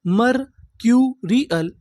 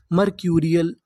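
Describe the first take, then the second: First: "मरक्यूरियल" very slowly, broken into syllables; teacher's drawn-out breakdown of "मरक्यूरियल". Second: Said in the usual way. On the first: Shown as a demonstration. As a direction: sound out "मरक्यूरियल" with gaps between the pieces. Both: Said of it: "पूरी meaning क्या बनी".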